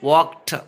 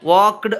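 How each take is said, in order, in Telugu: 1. ముగింపు స్పష్టమైన 't' శబ్దమే. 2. ముగింపు స్పష్టమైన 't' శబ్దం కాదు. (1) "ఈడీ చేంజెస్ టు టా సౌండ్" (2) "వాక్డ్ అంటాం జనరల్గా"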